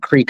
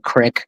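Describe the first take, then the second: First: The vowel is a long ee sound. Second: The vowel is a short i sound.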